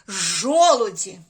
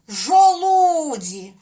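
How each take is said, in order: First: The stress is on the first syllable. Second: The stress is on the second syllable. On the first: The speaker calls it right. "Правильно буде ось так" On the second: The speaker calls it wrong. "якби ми поставили наголос от сюди, на звук У"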